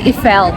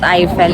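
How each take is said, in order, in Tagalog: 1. Ang pangalan ay binibigkas sa lokal na paraang Pranses. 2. Ang pangalan ay binibigkas sa karaniwang paraang Ingles. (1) "ang pronunciation daw dito, it's Eiffel" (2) "not Eiffel"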